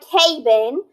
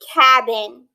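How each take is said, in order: First: The first vowel sounds long. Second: The first vowel sounds short. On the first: The speaker calls it wrong. "That didn't sound right" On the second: The speaker calls it right. "It's cabin"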